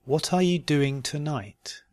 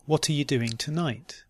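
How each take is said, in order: First: "What are you doing tonight" slowly and carefully. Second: "What are you doing tonight" run together quickly. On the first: Teacher giving learners a question to try, slowly. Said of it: "first slowly and then". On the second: Teacher repeating the practice question, quickly. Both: Shown as a demonstration.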